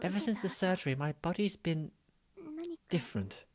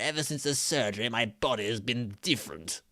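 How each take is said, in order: First: It is said in a plain voice. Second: It is said in a Frieza impression.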